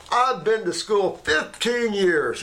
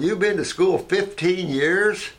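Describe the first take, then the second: First: Higher, slower, self-important boast; mock pompous doctor. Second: Higher, slow rising disbelief; incredulous echo. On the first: Arrogant doctor boasting of schooling, higher and slow. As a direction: lord your degree over him. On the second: Retold or imitated. Mocking the doctor's boast back at him, higher and slow. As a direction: throw his words back, amazed.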